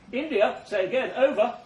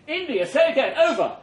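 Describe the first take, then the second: First: Said in the usual way. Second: Higher and louder "India, say again, over"; louder urgent radio call. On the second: Acted. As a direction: repeat the call, more urgent.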